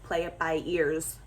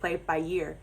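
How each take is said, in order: First: The last word is separated, sounding like 'ear'. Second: The last word runs together, sounding like 'year'. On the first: "I distinctly say" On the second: "it rolls off the tongue better"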